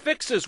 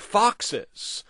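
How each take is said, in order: First: The first vowel sounds like the 'i' in 'fix'. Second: The first vowel sounds like the 'o' in 'fox'.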